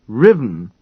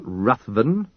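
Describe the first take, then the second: First: The name is said as two syllables, 'riv-en'. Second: The name is said with a 'th' sound, 'ruth-ven'. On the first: The speaker calls it right. "say his name properly" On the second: The speaker calls it wrong. "not Ruthven"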